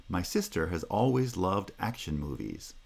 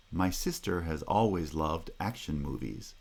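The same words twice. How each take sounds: First: Primary stresses on "sister", "always", "action"; stress rhythm demo. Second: A quieter run with the same stress beats on "sister", "always", "action"; stress rhythm demo again, softer. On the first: Teacher modelling the rhythm of the whole sentence. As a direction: read it with the natural stress rhythm. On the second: Teacher repeating the sentence rhythm for students. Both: Shown as a demonstration. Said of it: "That rhythm".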